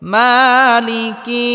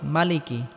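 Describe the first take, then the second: First: The first vowel is stretched long. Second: The first vowel is short. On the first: The speaker calls it right. "একালিফ টেনে পড়তে হবে" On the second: The speaker calls it wrong. "অনেকেই আমরা বলি মালিকি"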